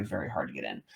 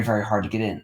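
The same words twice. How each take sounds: First: Low, soft, trailing emphasis; quiet. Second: Said in the usual way. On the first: Real, not acted. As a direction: drop the voice right down. Repeats phrase, drops low.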